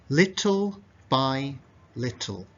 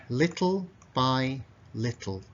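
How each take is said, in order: Both takes have the same delivery.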